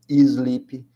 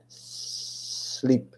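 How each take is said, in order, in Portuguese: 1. Um i extra é acrescentado antes do s. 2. A palavra começa direto com o s sibilante. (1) "o brasileiro tem o costume de falar" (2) "O som começa com S, igual um gás vazando"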